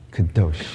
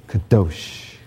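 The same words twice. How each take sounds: First: Kadosh said low, short and soft; Hebrew kadosh. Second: Kadosh with a throaty ending, said low and soft; Hebrew kadosh. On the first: Pastor leads the church repeating Kadosh, low and short. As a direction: drop low and clip Kadosh. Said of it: "One more time". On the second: Pastor models Kadosh for the congregation to repeat, low throaty Hebrew. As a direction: say Kadosh slowly, deep in the throat. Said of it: "Go like this". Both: Shown as a demonstration.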